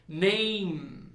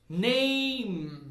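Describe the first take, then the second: No difference in how they are said.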